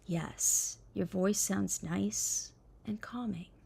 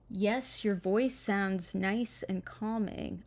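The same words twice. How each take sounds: First: It is read in a soft, soothing voice. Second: It is read in an ordinary speaking voice.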